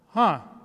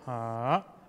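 First: The pitch falls from high to low. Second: The pitch dips down then rises slightly. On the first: "the fourth tone is from high to low" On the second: "you go down first and a little bit going up a little bit"

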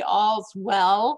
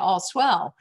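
First: The s sound ends the first word, all's. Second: The s sound begins the second word, swell. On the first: Everything is fine. "From now on, it's going to be All's Well" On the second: Everything is great. "we were pronouncing it All Swell"

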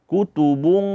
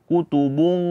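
Both takes have the same delivery.

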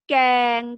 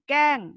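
First: The syllable is said with a level mid tone. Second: The syllable is said with a falling tone. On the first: "เสียงสามัญ" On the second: "เสียงโท"

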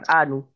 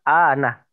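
First: The word ends with a 'u' vowel. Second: The word ends with an 'a' vowel. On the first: The speaker calls it wrong. "bukan anu" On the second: The speaker calls it right. "harokatnya ana bukan anu"

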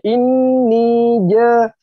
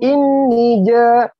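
First: The vowel in ni is held long. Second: The vowel in ni is cut short. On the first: The speaker calls it right. "panjang semua" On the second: The speaker calls it wrong. "Jangan inni ja, hilang kalau begitu panjang"

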